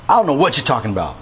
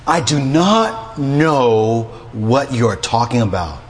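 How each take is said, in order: First: Fast, offhand modern brush-off; casual modern denial. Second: Slow, deliberate scripture-style reading; formal slow denial. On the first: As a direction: toss it off quickly like today's talk. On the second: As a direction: read each word slowly like scripture. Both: Shown as a demonstration. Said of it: "that's how I might say it today".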